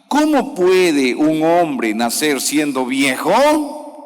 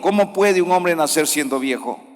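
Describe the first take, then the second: First: It is read with a clear questioning intonation. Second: It is read flatly, without a question tune. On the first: The speaker calls it right. "se le da la entonación... esa entonación de pregunta" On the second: The speaker calls it wrong. "hay personas que leen así... Así no se lee"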